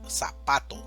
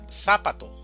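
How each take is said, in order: First: The stress is on the middle syllable. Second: The stress is on the first syllable. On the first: The speaker calls it right. "decimos zapato" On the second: The speaker calls it wrong. "Si fuera en la primera sílaba sería zapato"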